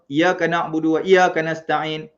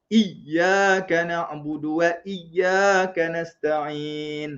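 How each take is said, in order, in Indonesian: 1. Huruf y pada iyyaka pendek dan tunggal. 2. Huruf y pada iyyaka ditahan dan dirangkap. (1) "Ada adik-adik baca" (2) "dia ada ya dua kali tu ... baru cantik"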